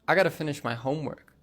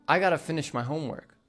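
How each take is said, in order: First: 'Got to' is blended into one word, 'gotta'. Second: The same.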